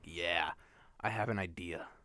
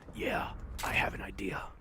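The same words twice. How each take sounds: First: It is said in a plain, normal voice. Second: It is said in a put-on raspy voice.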